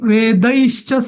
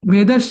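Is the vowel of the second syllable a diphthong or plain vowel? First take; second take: diphthong; plain vowel. First: The second syllable has an 'ai' diphthong. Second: The second syllable has a plain short vowel. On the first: The speaker calls it right. "वेदई पण व- ऐ आहे" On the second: The speaker calls it wrong. "वेदश्च नाही"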